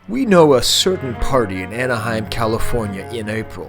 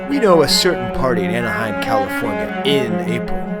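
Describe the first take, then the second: First: The 'in' before 'April' gets no special emphasis. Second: The 'in' before 'April' is emphasized.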